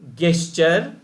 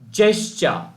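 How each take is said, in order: First: It is said with a local, non-standard pronunciation. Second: It is said with a standard, widely understood pronunciation. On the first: The speaker calls it wrong. "not at all good or not at all acceptable" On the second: The speaker calls it right. "so that the entire world can understand"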